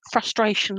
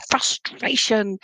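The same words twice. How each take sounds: First: Said in the usual way. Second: FRUSTRATION drawn out slowly through the middle; emphatic frustration. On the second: Shown as a demonstration. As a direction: stretch out "frustration" to feel it. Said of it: "I wanna say frustration".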